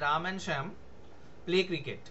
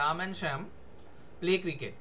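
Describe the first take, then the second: First: There is a pause before 'play cricket'. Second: The same.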